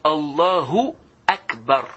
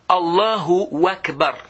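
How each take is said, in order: First: No extra sound comes before 'Akbar'. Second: An extra 'wa' sound comes before 'Akbar'. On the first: The speaker calls it right. "C'est Allahu Akbar" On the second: The speaker calls it wrong. "ils ajoutent même ... Non, il n'y a pas de wa là"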